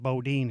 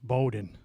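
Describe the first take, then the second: First: The name is said like 'Bodine'. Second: The name is said like 'Bowdoin'. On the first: The speaker calls it wrong. "He pronounced it Bodine" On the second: The speaker calls it right. "It's Bowdoin"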